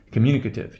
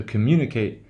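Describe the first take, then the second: First: Communicative with a reduced "kuh-tiv" ending; schwa in communicative. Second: Communicate with a full "kate" ending; long A in communicate. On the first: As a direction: say communicative, weakening "ate" to "uh". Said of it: "that eight becomes, uh". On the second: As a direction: say communicate, last syllable unreduced. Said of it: "pronunciation of the kate". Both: Shown as a demonstration.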